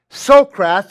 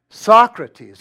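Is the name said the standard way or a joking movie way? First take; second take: movie; standard. First: The name is said a joking movie way. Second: The name is said the standard way.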